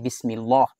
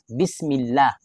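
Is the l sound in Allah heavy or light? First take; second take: Heavy; Light. First: The l sound is heavy and full. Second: The l sound is light and thin. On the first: The speaker calls it wrong. "hindi bismillah. Hada khata, yan ay mali" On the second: The speaker calls it right. "muraqqaq. Mababa"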